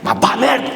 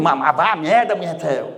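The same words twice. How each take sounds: First: Higher-pitched, offended telling-off; angry insult. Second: Friendly insult. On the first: Speaker showing the same words can offend, said angrily. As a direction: send them packing in anger. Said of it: "ou ficar puta da cara comigo". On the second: Speaker showing an insult can please the listener, said playfully. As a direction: tease warmly while telling them off. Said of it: "te mandar a merda e tu ficar feliz comigo". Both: Shown as a demonstration.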